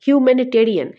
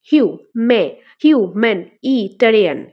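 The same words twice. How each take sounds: First: Said in the usual way. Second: "হিউ, মে, human, ইটারিয়ান" in loud separate chunks; syllable by syllable. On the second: Shown as a demonstration. Teacher counting parts of a long word, "human, ইটারিয়ান" said syllable by syllable. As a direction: break "human, ইটারিয়ান" into hiu, man, i, ta-ri-an. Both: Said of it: "এটা আমাদের কয়টা আসছে".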